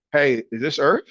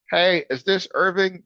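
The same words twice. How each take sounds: First: Said in the usual way. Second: Higher-pitched canned caller greeting; robocall voice. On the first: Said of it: "that's how I talk". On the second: Retold or imitated. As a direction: imitate a scripted robocall. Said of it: "how it is with those robocalls".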